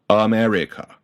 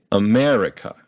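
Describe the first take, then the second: First: "America" with every syllable equally long; even syllable length. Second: "America" with MER held longer; long stressed syllable. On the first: Teacher showing the unnatural version, "America" in equal-length syllables. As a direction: give each syllable of "America" the same time. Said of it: "and not America". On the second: Teacher showing English length, "America" with a long MER. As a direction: stretch the MER in "America", others short. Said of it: "it makes them longer than unstressed syllables". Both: Shown as a demonstration.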